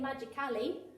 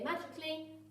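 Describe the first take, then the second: First: The middle 'al' syllable is sounded out fully. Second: The middle 'al' syllable is reduced or dropped. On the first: The speaker calls it wrong. "We don't say magically" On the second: The speaker calls it right. "we say magically, but it's spelt that way"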